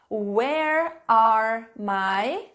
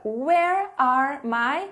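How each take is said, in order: First: "where are my" stretched very slowly with a rising end; slow prompt. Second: "Where are my" repeated slowly with a rising end; slow prompt. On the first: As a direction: draw the prompt out for students. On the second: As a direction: draw out the prompt again. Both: Shown as a demonstration. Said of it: "pergunta que vocês vão fazer".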